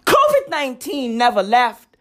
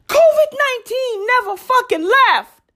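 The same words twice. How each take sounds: First: Said in the usual way. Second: Higher repeat. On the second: Real, not acted. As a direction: repeat it much higher, outraged.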